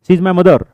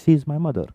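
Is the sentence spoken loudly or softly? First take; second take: loudly; softly. First: It is spoken forcefully at a loud volume. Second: It is spoken at a calm, normal volume. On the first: The speaker calls it wrong. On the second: The speaker calls it right.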